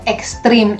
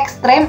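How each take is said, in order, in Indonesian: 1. Vokal terakhirnya bunyi 'i'. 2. Vokal terakhirnya bunyi 'e'. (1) "ekstrim itu tidak baku" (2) "Ternyata ekstrem adalah kata baku"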